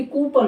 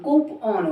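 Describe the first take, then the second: First: कूपन as koo-pun; reduced second vowel. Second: कूपन as koo-pon, open O; open second vowel. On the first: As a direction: say कूपन with a short uh in the second half. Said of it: "ना कि कूपन होता". (कूपन में छोटा अ) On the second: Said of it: "कूपन होता ना कि कूपन". (कूपन को कूपॉन बोलें) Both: Shown as a demonstration.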